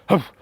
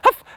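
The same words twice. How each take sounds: First: The bark is in a low, deep voice. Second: The bark is in a very high voice. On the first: It sounds like a big dog. "the lower one, very big, deep dog" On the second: It sounds like a small puppy. "Very high tone. Small puppy"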